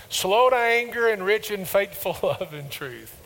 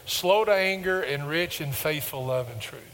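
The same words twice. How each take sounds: First: Recited louder and higher, a laugh mid-line; louder unison recital. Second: Said in the usual way. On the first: Shown as a demonstration. Preacher leading congregation in a louder, higher recital. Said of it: "Say it with me". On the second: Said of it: "Say this phrase with me".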